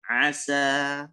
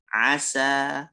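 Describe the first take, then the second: First: The s sound is thin and light. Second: The same.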